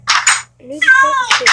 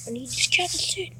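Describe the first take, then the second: First: High, loud, exasperated repeat; loud whiny shout. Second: Said in the usual way. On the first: Real, not acted. Vlogger repeating his craving, now high and loud. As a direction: belt it out in frustration.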